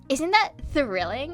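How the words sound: It is said in a put-on Valley Girl voice.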